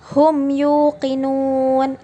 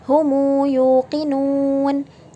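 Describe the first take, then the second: First: The m closes the word with no vowel. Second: A short u vowel follows the m. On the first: "yang membaca hum yuqinun itu dibaca dengan cara sukunnya" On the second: "apabila kita ingin membacanya dengan silah menjadi humu yuqinun"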